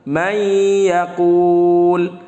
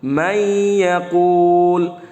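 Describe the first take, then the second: No difference in how they are said.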